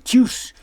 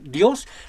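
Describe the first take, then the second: First: The word begins with a ch sound. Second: The word begins with a d sound. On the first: The speaker calls it wrong. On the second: The speaker calls it right.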